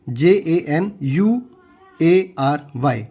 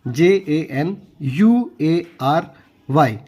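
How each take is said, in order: Both takes have the same delivery.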